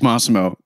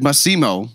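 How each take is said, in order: First: The name carries its usual native stress. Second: The stress shifts to a different, French-style syllable. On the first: The speaker calls it right. "I got to tell you. It's Massimo" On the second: The speaker calls it wrong. "That's the French way. ... The emphasis on a different syllable"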